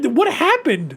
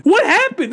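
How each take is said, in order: First: Said in the usual way. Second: Exasperated. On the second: Real, not acted. Reviewer despairing at the sequel, high exasperated cry. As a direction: throw up your hands at the writing. Ranting about the sequel's writing.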